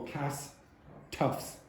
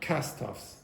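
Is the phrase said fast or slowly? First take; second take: slowly; fast. First: The phrase is said slowly, syllables pulled apart. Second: The phrase is said quickly, syllables run together. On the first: The speaker calls it wrong. "Don't go cast toffs" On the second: The speaker calls it right. "But say it quickly. ... You have to go"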